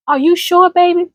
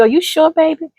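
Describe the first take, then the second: First: Doubt it kindly like a grandmother; elder asking gently. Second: Elder's gentle doubt. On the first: Ancestor cautioning a grandchild, gently. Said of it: "when they ask you that". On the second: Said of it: "and they say to you". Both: Retold or imitated.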